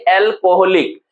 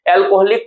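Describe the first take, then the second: First: Said in the usual way. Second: alcoholic in four separate beats; split into syllables. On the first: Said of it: "alcoholic को जब आप लिखते हैं". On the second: Shown as a demonstration. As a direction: break alcoholic into al-ko-hol-ik. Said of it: "जब आप लिखते हैं तो".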